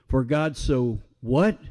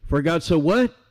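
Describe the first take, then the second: First: Rising prompt on what, inviting the answer; for a congregation, preacher prompts them to finish the verse; prompting question. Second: Preacher presses the congregation for the next word; prompting question. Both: Shown as a demonstration.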